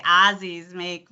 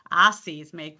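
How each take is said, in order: First: Twangy Chicago A in "Aussies"; Chicago accent. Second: Said in the usual way. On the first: Retold or imitated. Coach showing how they would say it, Chicago accent. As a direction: imitate the Midwest vowel in "Aussies". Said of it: "So they would say".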